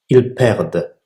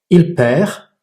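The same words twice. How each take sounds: First: "perdent" ending on a clearly spoken D; final D sounded. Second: Said in the usual way. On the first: Shown as a demonstration. Teacher showing learners the final D in "ils perdent". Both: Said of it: "il faut prononcer le D".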